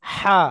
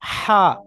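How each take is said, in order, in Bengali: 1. কর্কশ, জোর দেওয়া h ধ্বনি, যা ভেতর থেকে ঠেলে বের করতে হয়। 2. কর্কশ, জোর দেওয়া h ধ্বনি, যা ভেতর থেকে ঠেলে বের করতে হয়।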